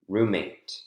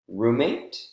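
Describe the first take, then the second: First: The voice falls at the end. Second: The voice rises at the end.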